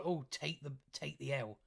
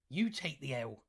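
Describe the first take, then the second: First: Said in the usual way. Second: "You" stressed, lower voice, falling end. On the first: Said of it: "so stop going on". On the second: Real, not acted. Vlogger turning a taunt back on critics, stressing "You". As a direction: throw it back by leaning on "You".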